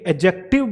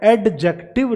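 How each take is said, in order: First: The d sound before j is silent. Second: The d sound before j is pronounced. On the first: The speaker calls it right. "ये एडजेक्टिव बोला जा रहा है" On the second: The speaker calls it wrong. "एडजेक्टिव नहीं बोला जा रहा"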